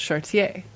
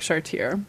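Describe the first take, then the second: First: The final consonant sound is silent. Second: The final consonant sound is pronounced. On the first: "in French, you often don't pronounce the last consonant, so it's Chartier" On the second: "so it looks like Chartier"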